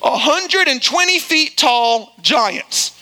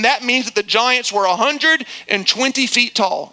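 First: "A hundred and twenty feet tall giants" slowed right down and drawn out word by word; stressed for disbelief. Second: Said in the usual way. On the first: Shown as a demonstration. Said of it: "totally untrue and false and exaggeration". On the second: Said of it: "if you do the math".

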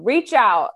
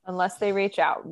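First: Loud, higher-pitched call; mock calling out. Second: Said in the usual way. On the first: Co-host to host's secret admirers, playfully calling out. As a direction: call it out playfully to someone far off.

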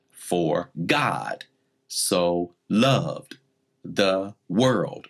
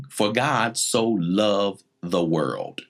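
First: "God", "loved", "world" each stressed, with pauses between phrases; emphasized key words. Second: Said in the usual way. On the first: Shown as a demonstration. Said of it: "when we emphasize key words, we'll say it like this". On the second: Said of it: "let's use John three sixteen".

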